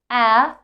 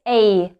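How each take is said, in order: First: The vowel is short, as in cat. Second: The vowel sounds like its letter name. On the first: The speaker calls it wrong. "Not like short version" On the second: The speaker calls it right. "but A"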